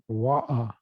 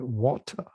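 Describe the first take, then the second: First: The t and final r are dropped. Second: The word is said in full, American style. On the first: "as they say in some streets of England" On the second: "At least you have to say water"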